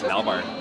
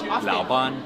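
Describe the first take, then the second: First: It is said in Chongqing dialect, ending in er. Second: It is said in standard Mandarin, ending in n. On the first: "In Chongqinghua it's Laobar" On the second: "in Putonghua, so like standard Chinese is Laoban"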